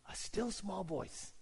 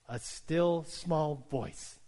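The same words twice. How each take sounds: First: Much softer, hushed delivery; still small voice. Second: Very slow, drawn-out phrase; slow, deliberate reading. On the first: Acted. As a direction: drop to a very soft, slow hush. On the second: Shown as a demonstration. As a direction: stretch each word out with long, measured care. Scripture phrase said slowly, then softly.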